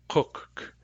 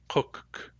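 No difference in how they are said.

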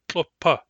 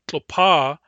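First: The second vowel is short. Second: The second vowel is long. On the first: This is the stem form used before an added ending. "short, short" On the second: This is the plain word for hot weather. "Normally, tlopa is short long"

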